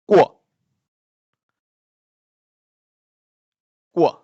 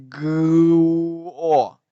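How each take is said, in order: First: "Guo" as one short, quick syllable; read together. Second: "guo" dragged out, a long loud g-u then o; split apart wrongly. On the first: Teacher showing learners the correct reading, "Guo" short and joined. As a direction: punch out "Guo" with g, u and o fused. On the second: Teacher showing learners what not to do, "guo" drawn out in parts. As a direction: stretch "guo" into separate sounds, gu...o. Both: Shown as a demonstration. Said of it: "it should be read together".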